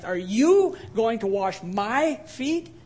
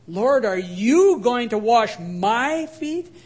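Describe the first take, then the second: First: Slow question with the weight on "you"; stress on you. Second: "you" stressed with a rising question, slow. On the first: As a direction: hit "you" hard, as if he can't believe it. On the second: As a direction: lean on "you" in disbelief, drawn out. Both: Retold or imitated. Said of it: "He actually emphasized".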